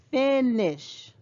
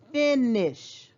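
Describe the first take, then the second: First: The first vowel is a short sound. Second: The first vowel is a short sound.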